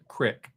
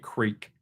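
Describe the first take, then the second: First: The word has a short 'i' vowel. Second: The word has a long 'ee' vowel. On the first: "I call it crick" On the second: "I do not normally say creek"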